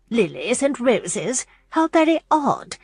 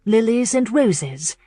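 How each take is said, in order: First: Slow puzzled Lilies and roses?; mild musing disdain. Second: Said in the usual way. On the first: A narrator's reading. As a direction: turn the idea over doubtfully. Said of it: "Missus Clark mused".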